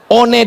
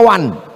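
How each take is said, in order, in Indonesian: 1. Setiap huruf yang ditulis dibaca sesuai tulisannya. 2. Dibaca cara Inggris, seperti wan.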